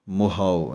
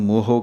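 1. ਆਖਰੀ ਸਵਰ 'ow' ਵਾਂਗ ਖਿਸਕਦਾ ਹੈ। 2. ਆਖਰੀ ਸਵਰ ਸਾਫ਼ 'oh' ਹੈ। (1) "ਕਨੌੜੇ ਦੀ ਆਵਾਜ਼ ਹੈ ਹਾਓ" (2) "ਇਹਨੂੰ ਮੋਹੋ ਕਹਿ ਦਿੰਦੇ ਹਨ, ਬਹੁਤੇ ਹੋੜਾ ਲਾ ਦਿੰਦੇ ਹਨ"

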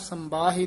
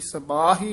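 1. ਪਹਿਲਾ ਅੱਖਰ ਨਾਸਿਕ ਹੈ, ਇਸ ਵਿੱਚ m ਦੀ ਆਵਾਜ਼ ਹੈ। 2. ਪਹਿਲਾ ਅੱਖਰ ਸਾਦਾ ਹੈ, ਨੱਕ ਦੀ ਆਵਾਜ਼ ਤੋਂ ਬਿਨਾਂ। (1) "ਸੰਬਾਹੀ ਨਹੀਂ ਕਹਿਣਾ, ਟਿੱਪੀ ਨਹੀਂ ਲੱਗੀ ਹੋਈ ਇੱਥੇ" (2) "ਸਬਾਹੀ ਹੀ ਉਚਾਰਨ ਕਰਨਾ ਹੈ"

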